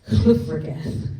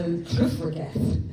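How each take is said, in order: First: Llyfrgell with a splashy ll behind the front teeth; Welsh word. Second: Slow Llyfrgell with a splashy ll behind the front teeth; Welsh word. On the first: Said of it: "if we're going to speak Welsh". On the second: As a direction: take Llyfrgell slowly, hissing ll at the teeth. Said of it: "you have to aim for a splashy sound behind your front teeth". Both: Shown as a demonstration.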